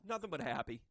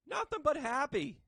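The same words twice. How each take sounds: First: Said in the usual way. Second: High, loud, slowed cheer; a big happy cheer to the viewers; excited shout. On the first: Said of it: "repeated with more force". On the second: Acted. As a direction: belt it out with joy. Repeated, much louder and higher.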